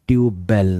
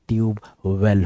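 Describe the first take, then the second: First: The second word begins with a B sound. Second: The second word begins with a W sound. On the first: The speaker calls it wrong. "Tube बेल नहीं होता" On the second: The speaker calls it right. "ये tube वेल होता है"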